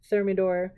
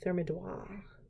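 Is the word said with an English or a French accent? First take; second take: English; French. First: It is said with a plain English accent. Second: It is said with a put-on French accent. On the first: "that's literally how it's spelled" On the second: "That was my French accent"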